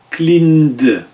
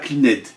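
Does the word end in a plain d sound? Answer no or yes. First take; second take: yes; no. First: The ending is a plain d sound. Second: The ending is not a plain d sound. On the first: The speaker calls it right. "c'est avec le D" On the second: The speaker calls it wrong. "Et pas cleaned"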